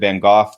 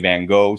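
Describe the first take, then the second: First: The name is pronounced the British way. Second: The name is pronounced the American way. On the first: "the British way" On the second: "here we say Van Gogh"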